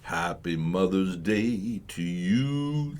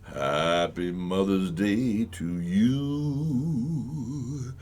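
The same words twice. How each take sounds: First: The voice sounds dry, without added reverb. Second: The voice sounds echoey, with added reverb.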